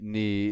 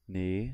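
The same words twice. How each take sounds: First: The pitch falls from start to end. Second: The pitch rises from start to end. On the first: "and then just down" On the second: "up, like rising"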